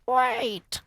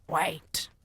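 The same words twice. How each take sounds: First: High, loud witch shriek. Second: Higher, louder shout. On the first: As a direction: shriek it to halt everyone. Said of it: "shrieked one of the witches". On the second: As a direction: call out to stop them. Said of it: "she shouted again". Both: Acted.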